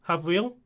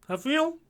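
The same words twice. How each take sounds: First: Said in the usual way. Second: Havriel? asked much higher with a rising tune; puzzled high query. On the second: Real, not acted. Streamer unsure how to say a viewer's name, high rising Havriel?. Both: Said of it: "Ha-, Havri".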